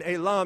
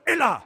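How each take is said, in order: First: Said in the usual way. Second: A big, high, loud fencing cry; triumphant shout. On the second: Retold or imitated. Fencer shouting at his opponent after scoring, triumphant yell. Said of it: "said it really loud".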